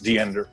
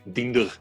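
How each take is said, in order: First: The name is said with an American accent. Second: The name is said with a German accent. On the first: "U S English, American English, which uh, which I think is Diender" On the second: "German-ish Diender"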